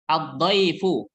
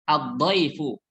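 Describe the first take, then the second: No difference in how they are said.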